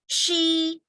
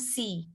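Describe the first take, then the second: First: The word begins with an sh sound. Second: The word begins with a plain s sound. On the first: The speaker calls it right. "bacanya adalah she" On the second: The speaker calls it wrong. "bukan si"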